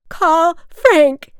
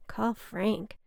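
First: High, very loud yell down a stairwell; full-voiced, high-pitched drunken scream; shriek. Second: Said in the usual way. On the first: A narrator's reading. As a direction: shriek it out desperately. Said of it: "she shrieked". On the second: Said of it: "I thought to myself".

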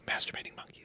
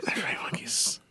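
First: Breathless hushed whisper. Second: Hushed whisper echo. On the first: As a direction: whisper it like a guilty secret. Mock secret urge whispered. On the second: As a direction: whisper it back conspiratorially. Echoes partner's whisper. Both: Pretend.

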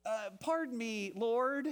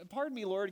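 First: A hint of a hesitant, pleading Gideon; lightly voiced nervous man asking to be excused; reluctant Gideon. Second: A hint of a hesitant Gideon, pitched up; lightly voiced, timid excuse; reluctant Gideon. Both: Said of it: "Can you hear his voice?".

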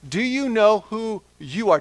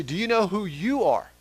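First: Louder and higher, rising on know; repeated with emphasis. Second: Said in the usual way. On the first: Shown as a demonstration. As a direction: press the question home again. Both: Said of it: "I want to ask you".

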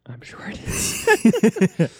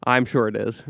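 First: Very slow, high-pitched echo; playful high repeat. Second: Said in the usual way. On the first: Pretend. Host agreeing about the backyard, slow high joking repeat. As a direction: stretch it out high and jokey.

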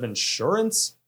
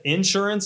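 First: "insurance" said in-SUR-ance, the standard way; stress on second syllable. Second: "insurance" said IN-surance, punched at the front; stress on first syllable. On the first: Contrasting with own accent for co-hosts, "insurance" stressed on SUR. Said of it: "instead of insurance". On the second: Recalling own accent in Boston, "insurance" stressed on IN. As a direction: hit the IN of "insurance". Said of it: "When I said insurance instead of insurance". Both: Shown as a demonstration.

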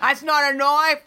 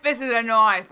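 First: Slow, higher Australian drawl imitating Crocodile Dundee; mock Aussie bushman, a bit higher and slower; Crocodile Dundee Australian accent. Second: Mock Australian, stress on "This" with a falling close; Crocodile Dundee punchline. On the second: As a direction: lean hard on "This" in an Aussie accent. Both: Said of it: "and Crocodile Dundee".

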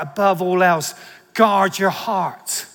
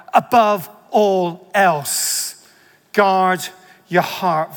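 First: "guard your heart" slowed right down and leaned on; weight the phrase "guard your heart"; stress on guard your heart. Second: "Above all else" drawn out very slowly and leaned on, louder; weight the opening "Above all else"; stress on above all else. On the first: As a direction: pull back on "Above all else", then land hard on "guard your heart". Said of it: "Then the next part". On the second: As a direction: linger on "Above all else", then ease off into "guard your heart". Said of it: "I might emphasize different parts of it". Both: Shown as a demonstration.

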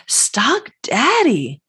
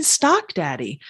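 First: Slow, breathy secret whisper of Stock Daddy; playful whisper. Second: Said in the usual way. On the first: Pretend. Host teasing listeners with a slow whispered Stock Daddy. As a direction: lean in and whisper it like a fun secret.

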